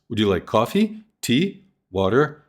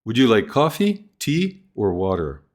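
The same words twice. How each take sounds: First: Open-ended choices; open list tune. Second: Coffee rises, water falls; closed three-choice list; list tune. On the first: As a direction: keep water up, list left open. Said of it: "Other choices available". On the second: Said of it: "Three choices". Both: Shown as a demonstration.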